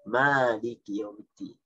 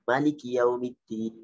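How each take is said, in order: First: The vowel after the m is long. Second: The vowel after the m is short. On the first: "membacanya dengan memanjangkan mim" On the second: "membaca dengan memendekkan mim"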